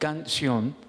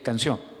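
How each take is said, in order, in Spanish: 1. El acento está en la primera sílaba. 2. El acento está en la última sílaba. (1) "estamos deformando esa palabra" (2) "sabemos que es canción"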